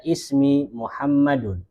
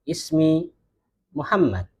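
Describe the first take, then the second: First: Slow "Ismi Muhammadun" with the -un ending; bacaan lengkap. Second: "Ismi Muhammad" stopped on the final consonant; gaya percakapan. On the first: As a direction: read "Muhammadun" out in full, ending in -un. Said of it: "Kalau kita baca". ("Ismi Muhammadun" dibaca lengkap dengan tanwin) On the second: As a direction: drop the -un from "Muhammad". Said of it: "kalau kita percakapan ngomongnya". ("Ismi Muhammad" dengan akhiran disukun) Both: Shown as a demonstration.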